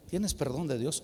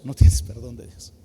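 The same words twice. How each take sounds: First: "Tienes perdón de Dios" asked low and soft; soft question. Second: "No" hit loud, the rest dropping low; negative verdict. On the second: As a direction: punch "No", then let "tienes perdón de Dios" fall. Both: Shown as a demonstration. Weighs two possible answers.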